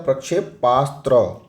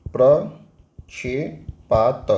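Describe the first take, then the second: First: प्रक्षेपास्त्र said crisply, ending in the full astra; correct form. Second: प्रक्षेपात stretched very slowly, ending in a plain t; wrong form, drawn out. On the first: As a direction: give the right प्रक्षेपास्त्र cleanly at normal pace. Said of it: "ये क्या होता है?". (सही रूप प्रक्षेपास्त्र साफ़ और सामान्य गति से) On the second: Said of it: "ये प्रक्षेपात नहीं होता है". (गलत रूप प्रक्षेपात बहुत धीरे खींचकर) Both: Shown as a demonstration.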